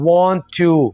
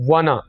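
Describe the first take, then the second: First: Both words are said fully and separately. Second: The words are blended into one reduced word. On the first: "word want to" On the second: "अंग्रेज इस word को ऐसे बोलते हैं वाना"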